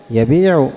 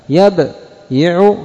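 First: Said in the usual way. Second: يبيع said slowly as yabyiʿu, rising at the end; heavy original form. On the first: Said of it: "تصير خفيفة". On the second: Shown as a demonstration. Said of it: "وتصير الكلمة بعد ذلك خفيفة". (يبيع على الأصل الثقيل ببطء)

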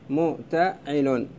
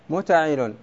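First: متعل drawn out slowly, syllable by syllable; spelled out slowly. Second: Said in the usual way. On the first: Shown as a demonstration. Teacher to students, spelling out the foot متعل slowly. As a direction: stretch متعل out slowly, one syllable at a time. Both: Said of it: "تصير".

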